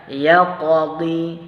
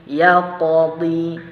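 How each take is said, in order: The two takes are said the same way.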